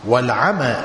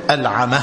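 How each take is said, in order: First: "والعمى" ending on an open long aa; long final vowel. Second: "العمى" ending in an audible h, like العمه; final haa sound. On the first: Teacher contrasting two terms, long open ending on "والعمى". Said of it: "بالياء الممدودة". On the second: Teacher dictating to students, final haa sounded in "العمى". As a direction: say "العمى" with a breathed haa in place of the final long a. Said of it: "بالهاء". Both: Shown as a demonstration.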